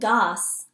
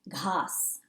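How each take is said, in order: First: The first consonant is a plain g without breath. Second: The first consonant is a breathy, aspirated gh. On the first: The speaker calls it wrong. "I'm not saying gas" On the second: The speaker calls it right. "Now that's a tricky H word"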